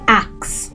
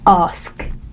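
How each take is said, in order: First: The word ends with a k then an s. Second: The word ends with an s then a k. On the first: The speaker calls it wrong. "not ask" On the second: The speaker calls it right. "Ask and not"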